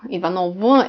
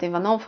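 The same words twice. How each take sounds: First: Ivanov with a full voiced V at the end; voiced final V in Ivanov; spelled-out V ending. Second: Ivanov ending in a short unvoiced F; final V of Ivanov devoiced to F. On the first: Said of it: "it's spelled". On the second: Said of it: "uh, I would say". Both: Shown as a demonstration.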